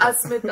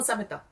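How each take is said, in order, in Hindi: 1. s से पहले एक स्वर जोड़ा जाता है। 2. s और m के बीच एक स्वर डाला जाता है। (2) "No, Samita"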